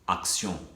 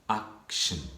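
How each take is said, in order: First: It is pronounced with French sounds. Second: It is pronounced with English sounds. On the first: "Action en français" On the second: "en anglais"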